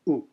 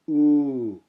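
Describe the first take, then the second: First: The vowel is held only briefly. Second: The vowel is held for longer. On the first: "the short one is without the line over the top" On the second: "The long one with the line over the top"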